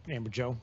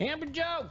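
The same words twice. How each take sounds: First: Said in the usual way. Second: High-pitched call-out of a name; yelling out a name. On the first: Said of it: "I don't mean to yell at you". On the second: Real, not acted. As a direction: holler the name across the newsroom. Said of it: "I don't know why I'm yelling".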